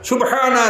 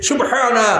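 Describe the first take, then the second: No difference in how they are said.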